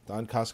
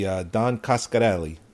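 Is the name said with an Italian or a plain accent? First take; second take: plain; Italian. First: The name is said plainly, without an Italian accent. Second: The name is said with an Italian accent.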